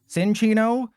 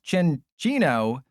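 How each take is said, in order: First: The name begins with an 's' sound. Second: The name begins with a 'ch' sound. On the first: The speaker calls it wrong. "It's not pronounced Cinchino, like like Tricky Jim taught me" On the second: The speaker calls it right. "it's pronounced Chinchino"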